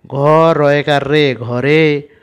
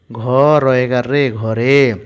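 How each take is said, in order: Both takes have the same delivery.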